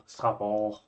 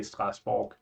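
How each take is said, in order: First: Mock-French "Strasbourg", no second S, final g dropped; guessed French pronunciation. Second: "Strasbourg" with every letter said, hard S, final g as k; Scandinavian pronunciation. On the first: Guessing how the French host says it, mock-French "Strasbourg". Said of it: "you ignore the second S". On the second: Explaining how Scandinavians say it, "Strasbourg" with all letters. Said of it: "we just say". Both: Shown as a demonstration.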